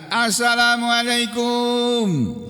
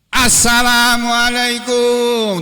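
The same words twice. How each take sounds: First: The greeting is said louder than before. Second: The greeting is said louder still, very loudly. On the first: Nobody answered, so the greeting is repeated. "Diulang lagi lebih keras" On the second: It is loud enough to startle anyone who is asleep. "tambah keras lagi biar kaget yang tidur"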